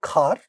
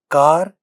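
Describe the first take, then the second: First: The first consonant has a puff of air. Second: The first consonant has no puff of air. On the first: "the initial sounds get aspirated" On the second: "without aspiration"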